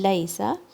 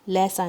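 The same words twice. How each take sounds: First: The first vowel is a soft 'ay' glide. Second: The first vowel lacks the soft 'ay' glide. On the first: The speaker calls it right. "लाम के ऊपर फतहा और फिर या पे या का लीन sound" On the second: The speaker calls it wrong. "नहीं"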